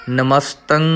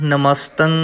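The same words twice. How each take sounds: Both takes have the same delivery.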